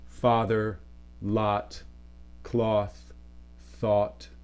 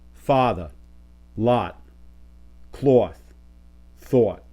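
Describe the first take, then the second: First: Said in a general American accent, less rounded. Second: Said in a New York accent, strongly rounded.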